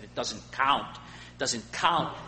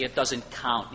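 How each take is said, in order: First: Put-on light Scottish accent, slow on the repeat; a hint of a Scottish preacher's accent, drawn out. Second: Said in the usual way. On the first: Preacher imitating a Scottish preacher's sermon, light Scottish accent. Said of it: "He had this Scottish accent, the way he said it". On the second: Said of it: "He had this Scottish accent".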